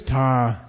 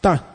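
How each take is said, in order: First: Long, low voiced 'Ta'. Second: Short high-tone 'ta'. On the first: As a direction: draw 'Ta' out low in the throat. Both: Shown as a demonstration. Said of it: "Hear the difference?".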